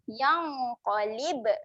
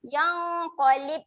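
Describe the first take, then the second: First: The b sound has a slight bouncing release. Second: The b sound stops dead without release. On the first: The speaker calls it right. "Ada lantunan sedikit" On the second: The speaker calls it wrong. "jangan matikan"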